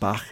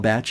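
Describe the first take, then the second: First: The name ends with a k-like or throaty sound. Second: The name ends with a 'tch' sound. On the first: This is not how he said his own name. "His name was not pronounced Bach" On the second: This is how he preferred his name said. "we'll call Batch as he preferred"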